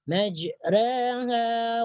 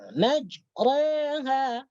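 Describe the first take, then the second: First: The r is pronounced light and thin. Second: The r is pronounced heavy and full. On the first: The speaker calls it right. "Jadi dibaca tipis" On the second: The speaker calls it wrong. "jangan sampai dibaca tebal seperti membaca majraha"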